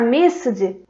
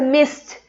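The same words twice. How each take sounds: First: The ending is not a plain t sound. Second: The ending is a plain t sound. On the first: The speaker calls it wrong. "Em vez de a gente pronunciar missed ou alguma coisa parecida" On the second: The speaker calls it right. "com som de T mesmo no final"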